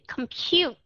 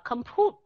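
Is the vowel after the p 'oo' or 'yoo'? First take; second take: yoo; oo. First: The vowel after p sounds like 'yoo'. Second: The vowel after p sounds like plain 'oo'. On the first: The speaker calls it right. "chúng ta sẽ đọc cái chữ compute" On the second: The speaker calls it wrong. "chứ không có đọc là compute"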